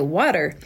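It is said in an Oklahoma accent. "here in Oklahoma, a lot of times we say water"

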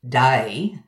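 The vowel glides widely in a broad Australian way. "or a broader Aussie day"

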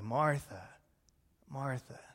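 The name is said in a loving tone. The speaker cares deeply. The speaker calls it right. "I think he said it in a loving way"

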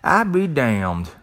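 It is said with a country twang.

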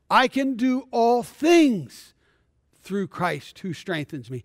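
The word 'things' is stressed.

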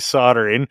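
It is said the non-Canadian way.

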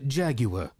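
The word has a British pronunciation. "Or you can be British and say Jaguar"

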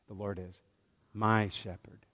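The stress is on "my".

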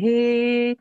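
It is said in a nasal talking voice.

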